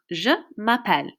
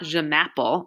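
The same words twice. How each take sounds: First: Je m'appelle in careful French, "zhuh ma-PELL"; correct pronunciation. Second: M'appelle said like English "mapple", stressed on the first syllable; anglicized m'appelle rhyming with "apple"; wrong pronunciation. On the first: French teacher corrects the mistake, m'appelle said "ma-PELL". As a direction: separate je, then m'appelle ending in a clear -pelle. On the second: French teacher shows students the mistake, m'appelle mispronounced as "mapple". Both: Shown as a demonstration. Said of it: "it's not je m'appelle".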